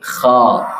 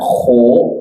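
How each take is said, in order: First: The vowel is said with the mouth wide open. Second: The vowel is said with rounded, pushed-out lips. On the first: The speaker calls it right. "tetapi kha. Buka mulut dengan sempurna" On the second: The speaker calls it wrong. "Pengucapan yang benar bukan kho"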